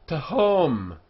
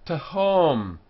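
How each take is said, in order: No difference in how they are said.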